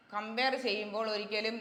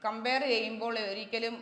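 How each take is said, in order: Both takes have the same delivery.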